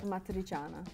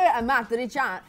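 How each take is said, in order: First: It is said in a plain, natural Italian accent. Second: It is said in an over-the-top Italian accent.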